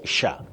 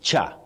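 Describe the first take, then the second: First: It begins with a sh sound. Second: It begins with a ch sound. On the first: The speaker calls it right. "you say sha" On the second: The speaker calls it wrong. "you don't say cha"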